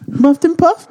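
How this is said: It is said like a little kid asking.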